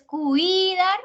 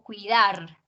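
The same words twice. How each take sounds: First: "cuidar" with a long, high, wrongly stressed "cui"; slow mis-stressed "cuidar", weight on CUI; stress on first syllable. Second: "cuidar" with the force on final "dar"; "cuidar" stressed at the end, short "cui", strong "dar"; stress on last syllable. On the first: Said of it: "¿Dónde hago la fuerza?". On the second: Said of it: "En la segunda, que es la última". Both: Shown as a demonstration.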